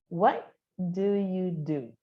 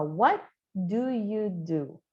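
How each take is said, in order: First: "What" with its T nearly silent, slow; soft final T. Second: "What" with its final T barely sounded, slow and careful; soft final T. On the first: Teacher repeats the soft-T phrase for students to copy. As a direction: repeat "What do you do" slowly, T swallowed. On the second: Teacher shows students the soft T in "What do you do". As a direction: say "What do you do" slowly, letting the T almost vanish. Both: Shown as a demonstration. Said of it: "Então, a gente vai falar".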